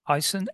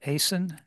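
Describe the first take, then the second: First: "Isen" opening with a long "eye" sound; trial pronunciation. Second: "Asen" opening with a long "ay" sound; alternative pronunciation. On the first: Chair asks the new member about his surname, "Isen" as EYE-sen. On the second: Chair checks the new member's surname, "Asen" as AY-sen. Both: Shown as a demonstration. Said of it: "how's it pronounced correctly?".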